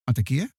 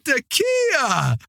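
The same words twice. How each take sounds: First: It sounds like a scared, questioning call into darkness. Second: It sounds like a warm greeting to an old friend.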